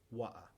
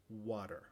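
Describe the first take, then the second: First: British "water" with no final R; clipped-R British "Wa'a"; British pronunciation. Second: American "water" with the final R sounded; American pronunciation. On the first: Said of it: "después con la pronunciación británica". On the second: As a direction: say "water" the Yankee way. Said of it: "con la pronunciación yankee". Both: Shown as a demonstration.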